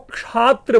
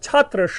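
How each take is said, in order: First: The word begins with a 'ksh' sound. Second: The word begins with a 'ch' sound. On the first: The speaker calls it wrong. "क्षात्र बोल लिया जाता है" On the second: The speaker calls it right. "छात्र शब्द है"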